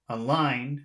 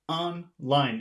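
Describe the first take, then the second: First: The stress is on the second syllable only. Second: Both syllables carry equal stress. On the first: The speaker calls it wrong. "If you say just the second syllable" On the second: The speaker calls it right. "It seems like both syllables are accented"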